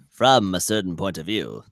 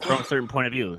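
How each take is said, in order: First: It is said in an Obi-Wan impression. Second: It is said in his ordinary voice.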